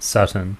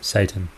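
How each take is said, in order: First: It is said so it almost sounds like satin. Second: It is said the usual English way, as Satan.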